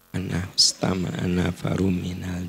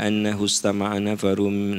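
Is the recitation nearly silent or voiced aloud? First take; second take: nearly silent; voiced aloud. First: It is mouthed almost without any voice. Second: It is voiced aloud at moderate volume. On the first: The recitation is meant to be private. "Sir itu, lihat bibir saya, lihat" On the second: The recitation is meant to be heard. "Nah, itu keluar suara"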